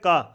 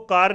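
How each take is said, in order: First: The word ends on a vowel without r. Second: The word ends with an audible r sound. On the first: The speaker calls it right. "वैसे तो कहते हैं का" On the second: The speaker calls it wrong. "इसको कार नहीं कहते"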